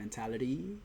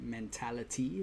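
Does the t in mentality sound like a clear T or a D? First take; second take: D; clear T. First: The middle consonant is a soft D sound. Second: The middle consonant is a crisp T sound. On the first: The speaker calls it wrong. "with a D" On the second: The speaker calls it right. "I appreciate a person that pronounces it mentality"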